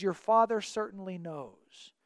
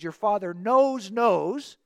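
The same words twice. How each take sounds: First: Said in the usual way. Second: "knows, knows" slowed, both words punched; repeated for emphasis. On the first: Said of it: "In Hebrew, it actually reads". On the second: Shown as a demonstration. Teacher reads the Hebrew literally, emphatic doubled "knows". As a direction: stress each "knows" separately, louder. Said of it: "Hebrew will repeat a word for emphasis".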